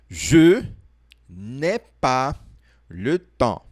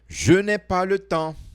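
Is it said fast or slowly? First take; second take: slowly; fast. First: It is said slowly. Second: It is said fast.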